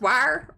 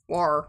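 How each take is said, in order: First: The word has the full 'wire' vowel. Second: The word sounds like 'were'. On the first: "is it pronounced wire or were?" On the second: "We don't we don't do the were"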